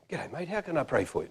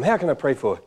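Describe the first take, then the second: First: Much softer, casual private greeting; off-mic aside. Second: Said in the usual way. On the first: Retold or imitated. Preacher greets a man at the front, off-mic softness. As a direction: say it just to him, off the microphone. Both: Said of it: "No microphone, by the way".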